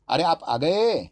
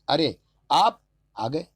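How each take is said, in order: First: The stress is on the last word. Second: The stress is on the second word.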